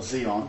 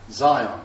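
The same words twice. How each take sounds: First: "Zion" pronounced zee-on, the other regional way; first syllable of Zion rhymes with "see". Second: "Zion" pronounced ZY-on, English style; first syllable of Zion rhymes with "sigh". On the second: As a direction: say Zion with a long eye sound first. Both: Shown as a demonstration. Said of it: "depending where you come from".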